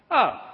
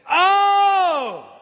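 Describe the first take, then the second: First: It is said flat and unenthusiastic. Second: It is said with loud excitement.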